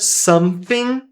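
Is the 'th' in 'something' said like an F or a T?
F. The 'th' is said like an F sound. "com som de F, é outro sotaque"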